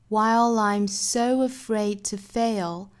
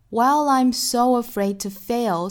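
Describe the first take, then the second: First: It is said slowly with a British accent. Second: It is said with an American accent. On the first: "用英音来读一下" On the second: "我们再来看美音的部分"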